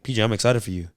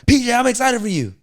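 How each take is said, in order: First: It is said warmly at a moderate volume. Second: It is said loudly, close to yelling. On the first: The speaker is genuinely happy for the listener. The speaker calls it right. "Energy is like you got to be genuinely happy to help somebody" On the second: The speaker is putting on forced, excessive hype. The speaker calls it wrong. "But I don't have to be like"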